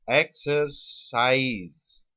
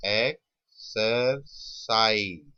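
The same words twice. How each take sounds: First: Slow sounding-out. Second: "exercise" very slow in three separate pieces; slow sounding-out. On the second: Teacher letting students hear each sound, slow sounding-out. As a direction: break "exercise" apart, pausing after each syllable. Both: Shown as a demonstration. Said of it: "जब word बोलोगे अपने आप".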